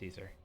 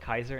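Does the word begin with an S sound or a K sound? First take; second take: S sound; K sound. First: The word begins with a soft S sound. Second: The word begins with a hard K sound.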